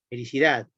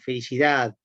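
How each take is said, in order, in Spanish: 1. Termina en un sonido sordo, tipo T. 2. Termina en una A larga, sin D. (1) "es como una T, es más sorda" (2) "o directamente como una A larga"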